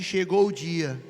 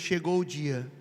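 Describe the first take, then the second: First: It is said louder and more forcefully. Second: It is said at normal, softer volume.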